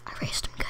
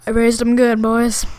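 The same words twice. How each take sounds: First: Unvoiced hush, repeating the brag; a quiet echo of the brag; whispered aside. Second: Put-on loud boastful brag to the boys; hammed-up proud yell; proud shout. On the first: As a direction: whisper it to yourself.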